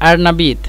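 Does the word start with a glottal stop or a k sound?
glottal stop. The word starts with a glottal stop. This is the local form that everyone understands. The speaker calls it right.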